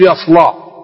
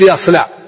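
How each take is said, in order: First: The L sound is thick and heavy. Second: The L sound is thin and light. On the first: "لا بد يقول" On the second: "يصعب عليه إخراج حرف اللام مرققة، ما يقدر يقول"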